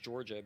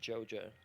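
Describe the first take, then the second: First: It is said with the r sounds fully pronounced. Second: It is said with the r sounds dropped. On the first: This is how the speaker says it. "what I said is Georgia" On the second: This is how people there say it. "they pronounce it Joja down there"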